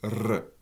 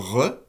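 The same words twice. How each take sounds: First: The R is trilled with the tongue tip. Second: The R is rubbed at the back of the throat. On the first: "le R est une roulée alvéolaire sonore" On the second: "Le R est une fricative uvulaire sonore"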